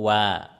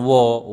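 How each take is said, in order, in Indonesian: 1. Vokalnya terbuka, seperti 'a'. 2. Vokalnya dibulatkan, seperti 'o'. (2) "bukan wo"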